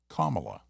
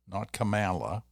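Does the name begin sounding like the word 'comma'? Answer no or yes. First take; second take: yes; no. First: The start sounds like the word 'comma'. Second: The start does not sound like 'comma'. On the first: The speaker calls it right. "Like the punctuation mark" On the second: The speaker calls it wrong.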